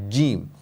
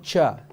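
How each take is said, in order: First: The consonant is a stopped j without air. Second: The consonant lets air escape like ch. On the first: The speaker calls it right. "try not to let any air go through" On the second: The speaker calls it wrong. "Don't say cha"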